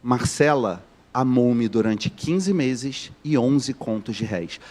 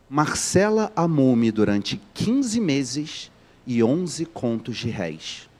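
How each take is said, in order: First: Measured literary repetition; slow repeated reading. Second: Slow, deliberate quote from the book; dry literary reading. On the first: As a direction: repeat the quote slowly so it sinks in. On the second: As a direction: read each word slowly to land the irony. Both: Shown as a demonstration. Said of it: "Vou repetir".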